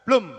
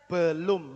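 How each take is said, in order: First: "Belum" as a quick one-syllable "blum"; everyday shortened form. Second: "belum" in two slow syllables, be-lum, lower; full form. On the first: Teacher showing how people usually say it, shortened. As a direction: squeeze the E out of "Belum". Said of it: "orang biasa ngomongnya gimana?". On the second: Teacher contrasting with the shortened word, fully sounded. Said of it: "itu seperti kayak disingkat begitu". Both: Shown as a demonstration.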